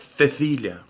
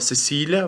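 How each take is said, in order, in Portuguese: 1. O c tem som de th. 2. O c tem som de s. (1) "vai ser Cecília" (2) "se chama Cecília"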